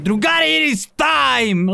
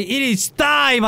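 First: Slow trailer voice; epic announcer. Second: Very slow, drawn-out dramatic announcement; slow trailer voice; epic announcer. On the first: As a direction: boom it out like a trailer. Dramatic announcer line. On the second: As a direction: stretch it like a movie trailer. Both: Pretend.

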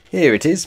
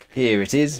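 First: High, loud, delighted; beaming. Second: Beaming. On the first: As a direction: show off the find proudly. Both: A narrator's reading. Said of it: "beamed Pa Utterly Otterly".

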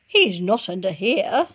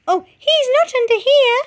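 First: Said in the usual way. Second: Very high, louder chick; squeaky chick correction; mother redoes the line in the chick's voice. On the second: Shown as a demonstration. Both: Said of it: "That's Chicken Licken speaking".

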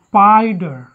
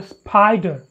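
First: "spider" drawn out, no puff on the P; unaspirated P. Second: "spider" with a puff of air after the P; wrong aspirated P. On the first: Teacher models the rule, unaspirated P in "spider". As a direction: keep the P after S in "spider" free of air. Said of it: "Have to talk it". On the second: Teacher shows students the mistake, aspirated P in "spider". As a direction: pop the P in "spider". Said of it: "po is not aspirated if it occurs after so". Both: Shown as a demonstration.

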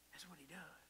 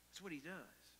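First: Whispering That's what he does; hushed aside to the congregation; whispered repeat. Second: Said in the usual way. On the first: Shown as a demonstration. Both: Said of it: "repeated as a whisper".

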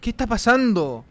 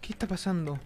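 First: Higher, drawn-out question; alarmed cry. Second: Soft, uneasy question; hushed unease. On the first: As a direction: call it out in alarm. (exclamación alargada de alarma) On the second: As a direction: ask it under your voice. Uneasy after a scare. (en voz baja, inquieto) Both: Real, not acted.

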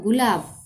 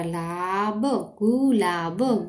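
First: Said in the usual way. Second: gulab drawn out slowly; sounding out slowly. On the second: Shown as a demonstration. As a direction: stretch gulab syllable by syllable.

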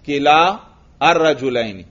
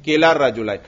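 First: किला, pause, then अर्रजुलैनी; unjoined words. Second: किला अर्रजुलैन run together as "kilar-rajulain"; joined reading. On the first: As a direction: keep the long "aa" of किला apart from अर्रजुलैनी. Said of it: "अलिफ जो है इज्तिमाई साकिनैन से गिर गया". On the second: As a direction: drop the long alif and link किला अर्रजुलैन with a doubled r. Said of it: "तो कैसे पढ़ेंगे?". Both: Shown as a demonstration.

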